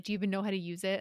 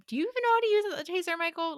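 First: Condescending. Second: High-pitched, rapid mock condescension; condescending. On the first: Retold or imitated. Man doubting she can use her taser, condescending. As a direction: ask it with understated condescension. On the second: Repeating his doubt about the taser, hammed-up condescending. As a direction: exaggerate the condescending question, pitched way up. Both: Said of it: "he's, like, very condescendingly".

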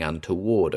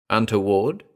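First: Said in the usual way. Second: Untoward rising as a question; puzzled query. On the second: Acted. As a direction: echo untoward back, pitch rising at end. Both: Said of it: "he queried".

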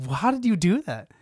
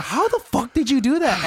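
First: Imitating an incredulous, mad demand; mock-indignant question, pitched higher; retold indignant question. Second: Higher, indignant mock outburst; honestly mad, imitated. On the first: Co-host retells an actor demanding an explanation, mildly indignant. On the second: Co-host retells Ike angrily confronting the actor, honestly mad. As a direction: act out an incredulous, angry demand. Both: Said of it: "He's, like, honestly mad".

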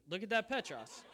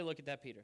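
First: "Petros" said PET-ros, higher and louder, as the right word; Greek name. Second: "Peter" said the English way, plain, as the wrong choice; wrong name. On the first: Preacher correcting the congregation to Greek: "Petros" stressed. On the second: Preacher showing the congregation the wrong word: "Peter" plain English. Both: Shown as a demonstration. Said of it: "Don't say".

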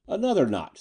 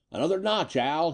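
First: High-pitched order with a touch of grimness; mildly grim. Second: High-pitched, lightly gleeful call; a touch of chortling glee, pitched up; mild chortle. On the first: Eddie ordering more squeeze on the gangster, mildly grim. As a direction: give the order firmly, pitched up, slightly grim. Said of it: "said Eddie grimly". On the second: Eddie calling to Al as he works the robot, mildly chortling. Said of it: "he chortled". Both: A narrator's reading.

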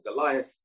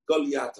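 First: Said in the usual way. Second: Goliath in its Hebrew form, Golyat; Hebrew pronunciation. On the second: Shown as a demonstration. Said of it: "Goliath in Hebrew".

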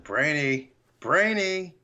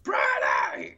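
First: Retold warning, second call pitched up; mock exasperated name-calling; mounting anger. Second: Mock-furious strangled yell; hammed-up exploding in anger; angry shout. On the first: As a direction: imitate losing patience, building on each call. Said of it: "you don't see Papa Smurf get angry". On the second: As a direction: imitate finally snapping and yelling the name. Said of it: "Brainy makes this dude angry".

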